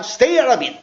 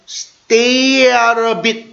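First: Short, linked "stay out of it"; quick pronunciation drill. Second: Drawn-out "stay out of it"; slow pronunciation drill. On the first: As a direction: say it in one quick run. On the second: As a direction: stretch each linked word for learners. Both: Shown as a demonstration. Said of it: "발음을 한번 연습할게요".

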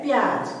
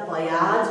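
First: प्याज as one beat, pyaaj; short प sound. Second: प्याज with a full प, as pa-yaaj; full प sound. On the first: Teacher showing what joined letters become, short-प pronunciation. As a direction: run प straight into य in प्याज. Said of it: "उसकी उच्चारण छोटी करते हैं". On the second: Teacher showing unjoined spelling to learners, full-प pronunciation. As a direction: open प into its own beat in प्याज. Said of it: "प का उच्चारण पूरा हो जाता है". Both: Shown as a demonstration.

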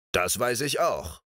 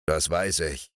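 First: Lightly smug, grinning "Das weiß ich auch"; friendly grin. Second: Low, grumbling growl; low sleepy ogre growling "Das weiß ich". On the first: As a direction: say it with a pleased grin. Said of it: "grinste sie freundlich an". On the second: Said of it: "knurrte der Menschenfresser". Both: Acted.

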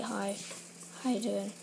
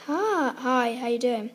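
First: Low, understated greeting; lower-pitched demo of a boring speaker; demonstrating own boring voice. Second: Lightly mimicked louder greeting; mild mock of mum saying hello; imitating mum's old voice. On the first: Shown as a demonstration. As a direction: show your own dull hello, pitched down. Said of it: "I speak like". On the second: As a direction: mimic mum's former everyday hello, a bit loud. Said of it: "She used to speak like".

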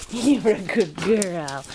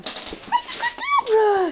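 First: Low, slow tender praise. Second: High, slow sing-song praise; drawn-out high coo for a dog. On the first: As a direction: soothe the dog with slow words. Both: Real, not acted.

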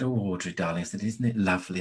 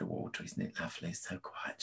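First: Said in the usual way. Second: Hushed whisper, barely voiced; whispering by a hospital bed at night. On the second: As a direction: breathe it softly so as not to wake her. Whispering beside her dying mother.

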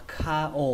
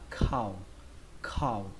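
First: "ka o" as two distinct syllables; slow, separated "ka o"; two separate sounds. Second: "khao" run together as one syllable; single falling syllable "khao"; blended syllable. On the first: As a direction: split it into "ka", then "o". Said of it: "khi đọc nhanh thì nó nghe". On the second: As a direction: glide "ka" into "o" as "khao". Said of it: "khi đọc nhanh thì nó nghe hơi giống chữ khao". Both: Shown as a demonstration.

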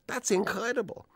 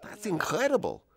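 First: Even higher, awestruck repeat; astounded, repeated. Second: High, amazed exclamation; astounded. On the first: Studio boss repeating himself at the footage, awestruck and high. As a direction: say it again, still stunned. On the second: Studio boss seeing Brando's transformation, high amazed exclamation. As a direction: gasp it out in disbelief. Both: Retold or imitated. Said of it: "Charlie is just looks astounded and he says".

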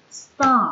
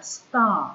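First: Star set apart and said loud as a model; star said alone, loud and clear. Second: Said in the usual way. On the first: Shown as a demonstration. Teacher modelling the word for pupils, loud and clear. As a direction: say star out on its own, clearly, for the class. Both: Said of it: "ngôi sao đọc là star".

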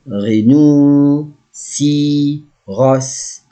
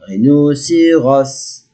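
First: "Rhinocéros" very slow, with gaps between parts; syllable by syllable. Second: Said in the usual way. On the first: Shown as a demonstration. Teacher models a new animal word, syllable by syllable. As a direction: stretch "Rhinocéros" into ri-no-cé-ros.

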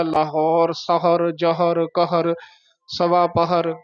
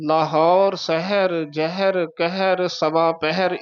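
First: ਸਹਰ, ਜਹਰ, ਪਹਰ with plain short a round the h; mistaken flat-a pronunciation. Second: ਸਹਿਰ, ਜ਼ਹਿਰ, ਪਹਿਰ with e-coloured vowels round the h; traditional pronunciation. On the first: Teacher showing where the wrong rule leads, short-a vowels. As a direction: say ਸਹਰ as "sa-har", no e colour. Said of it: "ਫਿਰ ਤਾਂ ਇਹ ਸੰਸਾਰ ਉੱਥੇ ਉਚਾਰਨ ਕਰਨਾ ਪਏਗਾ". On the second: Teacher giving the traditional reading, e-coloured vowels. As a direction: say ਸਹਿਰ as "seh-her". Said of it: "ਸੰਪਰਦਾਵਾਂ ਦੇ ਵਿੱਚ ਉਚਾਰਨ ਕੀਤਾ ਜਾਂਦਾ ਹੈ". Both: Shown as a demonstration.

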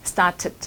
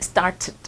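No difference in how they are said.

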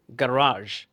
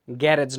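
First: গ্যারাজ said "guh-RAAZH"; correct pronunciation. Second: গ্যারেজ said "GYA-rej"; wrong pronunciation. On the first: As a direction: say গ্যারাজ with long "aa" and soft zh. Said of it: "এটার উচ্চারণ হবে". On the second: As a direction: say গ্যারেজ with an "-ej" ending. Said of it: "গ্যারেজ না কিন্তু". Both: Shown as a demonstration.

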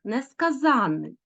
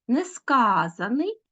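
First: Несказаний said slowly with stress on -ZAN-, falling; stress on the suffix. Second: Несказаний slow, -SKA- drawn out, rising end; stress on the root. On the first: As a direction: say несказаний as ne-ska-ZÁN-nyi. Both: Shown as a demonstration. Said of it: "звертайте увагу на наголос".

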